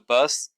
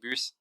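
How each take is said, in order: First: The word is pronounced with an English vowel. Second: The word is pronounced with a French vowel. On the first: "the English way like the bus" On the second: "in French we say bus"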